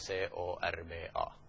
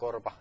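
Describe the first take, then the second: First: Each letter is said separately. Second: It is said as a single word. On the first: The speaker calls it wrong. "eikä C-O-R-B-A" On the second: The speaker calls it right. "Se lausutaan korpa"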